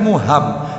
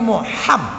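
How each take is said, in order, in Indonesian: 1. Bunyi h itu ringan, seperti hembusan napas. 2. Bunyi h itu kuat, dari dalam tenggorokan. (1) "Mestinya kan bukan muham" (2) "tetapi muham, ha, bukan ha"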